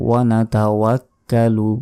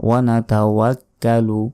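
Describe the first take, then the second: No difference in how they are said.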